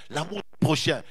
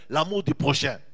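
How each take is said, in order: Both takes have the same delivery.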